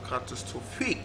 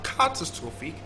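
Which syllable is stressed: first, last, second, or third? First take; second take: last; first. First: The stress is on the last syllable. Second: The stress is on the first syllable. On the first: "last syllable" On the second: "stress on the first syllable"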